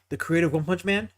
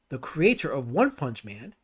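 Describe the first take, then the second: First: The phrase is spoken at a normal, quicker pace. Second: The phrase is spoken at a slower pace.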